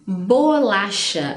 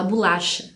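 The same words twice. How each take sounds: First: Bolacha said slowly with a clear o, bo-la-cha; careful spelling pronunciation of bolacha with open o; written-form bolacha. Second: Bolacha said as bulacha, the o relaxed to u; casual spoken bolacha with u sound; everyday bolacha. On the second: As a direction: say bolacha the way people really talk, bulacha. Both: Shown as a demonstration. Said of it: "apesar da gente falar bolacha".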